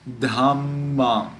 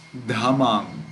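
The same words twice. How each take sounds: First: Dhammam slow, with a long held middle mm; double consonant. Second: Dhammam with a short single m in the middle; single consonant. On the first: Teacher showing the right reading, dhammam with the middle m held. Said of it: "We read it as dhammam". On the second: Teacher showing the wrong reading, dhammam with no held m. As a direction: pass straight through the middle m of dhammam. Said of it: "We do not read it as". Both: Shown as a demonstration.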